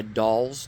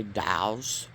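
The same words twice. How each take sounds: First: Said in the usual way. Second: "dows" with the l dropped into an ow sound, slowly; northern Ohio "dows". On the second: Shown as a demonstration. Showing how northern Ohioans say dolls, a slow "dows". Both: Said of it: "they do have a nasal sound".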